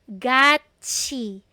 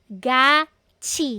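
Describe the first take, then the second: First: The second syllable starts with a ch sound. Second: The same.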